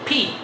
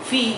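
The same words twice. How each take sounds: First: The p is released with a strong puff of air. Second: The p is said without a puff of air. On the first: The speaker calls it right. "দুই ঠোঁট যুক্ত করে সজোরে বাতাসটা ছেড়ে দিবেন।" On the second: The speaker calls it wrong. "আমরা অনেকেই বলি ফি ফি। নো"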